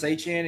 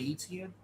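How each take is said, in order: First: The name has a local Louisiana pronunciation. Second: The name has its usual general American pronunciation. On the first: This is how people in Louisiana say it. "Like how we say Travis Etienne" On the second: This is how people elsewhere say it. "y'all say Etienne"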